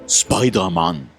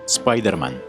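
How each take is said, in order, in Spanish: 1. Se dice con acento japonés. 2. Se dice con acento español. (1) "Te vuela la cabeza cómo cambias el acento definitivamente" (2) "¿han notado cómo cambiamos la voz cada vez que cambiamos de idioma?"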